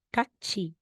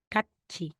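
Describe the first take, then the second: First: The last syllable is said with a ch sound. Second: The last syllable is said with a ch sound.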